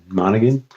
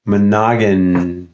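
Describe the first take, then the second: First: Monaghan as MAH-nuh-gun, questioning; first-syllable stress. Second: Monaghan slowly as muh-NAH-gun; second-syllable stress. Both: Shown as a demonstration. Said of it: "pronounce your last name".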